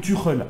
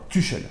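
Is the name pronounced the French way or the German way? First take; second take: German; French. First: The name is pronounced in a German way. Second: The name is pronounced in a French way. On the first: "pour ceux qui veulent le prononcer à l'allemande" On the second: "le prononcer à la française"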